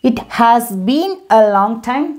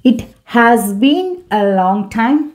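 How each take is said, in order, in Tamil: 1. "It has" இரண்டு முழு சொற்களாகச் சொல்லப்படுகிறது. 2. "It has" இரண்டு முழு சொற்களாகச் சொல்லப்படுகிறது.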